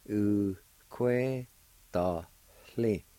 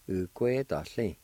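First: "U kwe da hli" slowly, with short gaps; syllable by syllable. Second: Said in the usual way. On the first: Shown as a demonstration. Teacher repeating for learners, "U kwe da hli" in separate syllables. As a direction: keep each syllable of "U kwe da hli" apart. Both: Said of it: "is pronounced like this".

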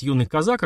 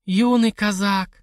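First: Said in the usual way. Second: Slow, high and relishing; savoring, drawn out. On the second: Acted. Widow relishes hearing of young Cossack, slow and high. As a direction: roll the words with appetite. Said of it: "спросила Зизи".

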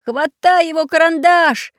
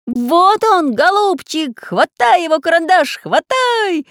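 First: High, loud frantic shout; frantic yell. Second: High, loud eager yelling; excited shout. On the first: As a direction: yell it in panic, voice cracking high. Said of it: "не своим голосом закричал". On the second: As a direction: shout it all together, urging. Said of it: "закричали одновременно". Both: Acted.

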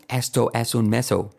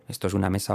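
First: Slow "meso" with a gliding o; foreign learner's mistake. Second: Said in the usual way. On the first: Retold or imitated. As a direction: imitate a learner saying "meso".

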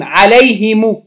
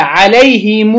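First: عليهم said "alayhimu", short final u; slow عليهم, i after h and u after m; damma on mim. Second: عليهم said "alayhimuu", long final oo; damma with sila. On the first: Teacher showing students the next form, عليهم as "alayhimu". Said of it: "كسر الهاء مع ضم الميم". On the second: Teacher showing students the linked form, عليهم as "alayhimuu". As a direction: stretch the closing u of عليهم after "him". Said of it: "مع ضم الميم وصلتها". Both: Shown as a demonstration.

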